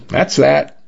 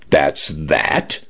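First: Higher-pitched, falling brush-off; offhand, case-closed finality; dismissive shrug. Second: Incredulous echo with rising end; rising, understated disbelief; disbelieving question. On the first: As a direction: close the matter with a verbal shrug. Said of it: "with a shrug". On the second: Dinah echoes officer in disbelief. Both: A narrator's reading.

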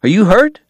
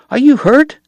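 First: Higher, calmer question stressing "hurt"; concerned question. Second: Much higher, urgent worried question stressing "you"; anxious question. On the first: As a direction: ask again more gently. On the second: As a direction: check on her in a panic. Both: Acted. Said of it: "he cried".

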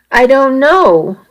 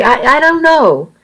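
First: Slow, higher, unhappy answer; unsure and unhappy, dragged out; unhappily. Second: High, faltering stammer; unsure, tripping over words; helpless stammer. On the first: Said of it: "I answered unhappily". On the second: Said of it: "I answered helplessly". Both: A narrator's reading.

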